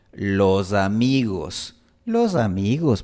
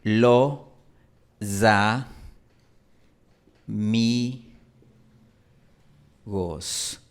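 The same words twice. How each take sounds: First: "Los amigos" con s sonora como z; voiced s. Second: "lo, za, mi, gos" separado, s como z; voiced s. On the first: (s sonorizada entre vocales) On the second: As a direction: sonoriza la s entre vocales en "los amigos". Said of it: "En la Sierra Ecuatoriana pronunciamos". (sílabas lentas con z sonora) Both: Shown as a demonstration.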